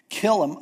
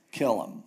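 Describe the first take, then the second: First: KILL hit firmly, a bit louder and higher; a sharp spoken "Kill"; firm order. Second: A flat final "kill"; dropped repeat. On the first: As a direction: bark out "Kill 'em" as a command. Moses orders the killing. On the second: Moses repeats the order. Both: Retold or imitated.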